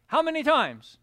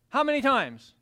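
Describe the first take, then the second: No difference in how they are said.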